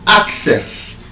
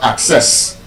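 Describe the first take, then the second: First: The stress is on the first syllable. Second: The stress is on the second syllable. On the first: The speaker calls it right. "That word as a noun and as a verb is stressed on the first syllable" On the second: The speaker calls it wrong. "not access"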